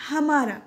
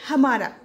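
The two takes are said the same way.

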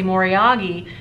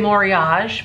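First: The word is said in the Japanese way. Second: The word is said in an anglicized way. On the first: This matches how Japanese speakers say it. The speaker calls it right. "now I say Moriagi because apparently that's how the Japanese pronounce it" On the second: This is the speaker's old habit. The speaker calls it wrong. "I used to say Moriage"

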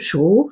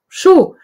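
First: The pitch rises from mid to high. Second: The pitch falls sharply from high.

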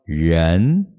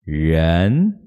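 Both takes have the same delivery.

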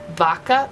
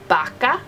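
First: The first sound is an English V sound. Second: The first sound is a soft B-like sound. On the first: "instead of vaca, the way it's spelled" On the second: "you can often hear Spanish speakers say vaca"

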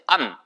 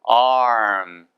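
First: A short clipped vowel with no r. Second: A long vowel, drawn out before the m. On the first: The speaker calls it wrong. "암이 아니고" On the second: The speaker calls it right.

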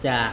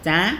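First: The syllable is said without the high tone. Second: The syllable is said with a high tone.

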